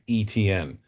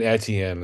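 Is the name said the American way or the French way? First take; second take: American; French. First: It sounds like the letters E, T, N. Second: It has a French sound, unlike the letters. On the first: "I'm used to saying E T N" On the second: "Saint Etienne is how you say it"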